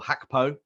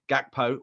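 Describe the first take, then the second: First: The name begins with a breathy H sound. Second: The name begins with a hard G sound.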